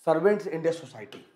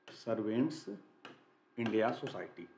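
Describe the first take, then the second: First: Said in the usual way. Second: Lower, softer "सर्वेंट्स ... India सोसाइटी" with a pause after the first word. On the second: Shown as a demonstration. Teacher dictating the society's name to students, broken up and soft. Repeats name in pieces while writing.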